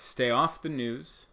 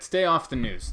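First: "Stay off the news." slowed down with "off" rising; slow emphatic advice. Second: "Stay off the news." said louder, punched on "Stay"; firm advice. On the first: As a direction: stretch it out and lift "off". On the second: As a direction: hit "Stay" hard as a warning. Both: Shown as a demonstration. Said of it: "my only piece of positive advice".

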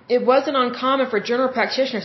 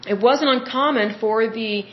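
First: Speaking through hiccups; words broken by a hiccup. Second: Said in the usual way. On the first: Real, not acted. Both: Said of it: "excuse me, I have the hiccups".

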